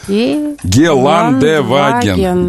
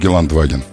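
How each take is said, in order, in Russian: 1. После 'Geland' произносится гласный е. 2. После 'Geland' гласный не произносится. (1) "Е читается" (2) "Почему ты говоришь Геландваген?"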